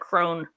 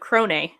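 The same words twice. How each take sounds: First: The name is said with an English pronunciation. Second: The name is said with a European pronunciation. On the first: It sounds creepy. "that sounds just creepy" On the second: It sounds classy. "European pronunciation of Crone"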